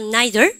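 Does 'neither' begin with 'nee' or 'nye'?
nye. It begins with a 'nye' sound. "영국 애들은 발음가"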